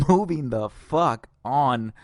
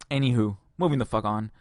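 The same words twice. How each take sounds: First: Laughing. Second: Said in the usual way. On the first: Real, not acted. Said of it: "laughing paired take". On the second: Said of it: "second plain take".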